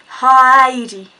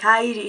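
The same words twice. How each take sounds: First: HEIDI loud and stretched out; drawn-out Heidi. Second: HEIDI tossed out fast at usual volume; quick Heidi. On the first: Giving the man a fake name, HEIDI said slow and loud. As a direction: draw out the first syllable of Heidi, loudly. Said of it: "was really fast". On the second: Blurting a fake name to the man, HEIDI said fast. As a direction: say Heidi quickly, without stretching it. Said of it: "was really fast, like". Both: Retold or imitated.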